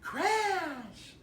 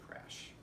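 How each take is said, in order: First: It is said in an excited, emphatic tone. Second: It is said in a calm, even tone. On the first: The speaker calls it wrong. "We don't want to say" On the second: The speaker calls it right. "We want to say crash. The same way we give the command"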